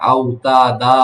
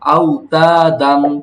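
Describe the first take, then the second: First: The word ends with a lengthened a vowel. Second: The word ends with a short vowel plus n. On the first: The reading stops at this word. "এক আলিফ টেনে পড়া হইতো" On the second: The reading continues without a stop here. "তানউইনের উচ্চারণ দিয়ে বলতে শিখতেছি"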